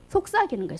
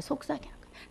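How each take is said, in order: First: Said in the usual way. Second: "속삭이는 거예요" breathed as a real whisper, much softer. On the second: Shown as a demonstration. Preacher showing the congregation what whispering means, whisper.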